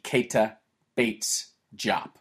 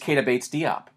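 First: The last name ends sounding like 'Jop'. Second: The last name ends sounding like 'Dee-op'. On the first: This is how the family says the name. "The family hits the T in Keita hard and will tell you it's more like Jop" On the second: This is the easier, familiar way to say it. "at Ohio State, he was Keita Bates-Diop"

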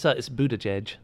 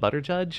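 First: The name is not said like 'butter judge'. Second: The name is said like 'butter judge'. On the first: The speaker calls it right. "it's Buttigieg" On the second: The speaker calls it wrong. "Are you mispronouncing his name to be funny"

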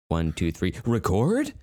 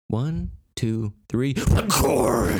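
First: The voice rises on "record" like a question. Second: The voice falls firmly on "record" like a statement.

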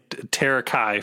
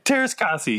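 First: It is said without the 's' sounds. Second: It is said with an 's' in each half. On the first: The speaker calls it wrong. "I've been saying Terakai for the last 25 years" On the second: The speaker calls it right. "what's the official pronunciation of it now?"

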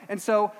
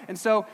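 No difference in how they are said.

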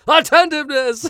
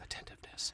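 First: It is yelled out loudly. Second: It is said quietly, under the breath.

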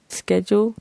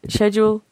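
First: It is said with an American pronunciation. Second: It is said with a British pronunciation. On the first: "The Americans say schedule" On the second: "British say schedule"

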